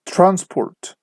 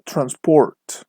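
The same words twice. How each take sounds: First: TRANSport, high first syllable, falling away; noun stress. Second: TransPORT, second syllable slow and long; verb stress. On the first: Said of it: "the stress is on the first syllable". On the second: Teacher shows students the verb form, slow stress on PORT in "transport". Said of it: "the stress is on the second syllable". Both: Shown as a demonstration.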